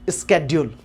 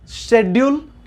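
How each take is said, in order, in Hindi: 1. इस शब्द की शुरुआत sk ध्वनि से होती है। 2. इस शब्द की शुरुआत sh ध्वनि से होती है। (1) "दोनों सही है" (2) "दोनों सही है"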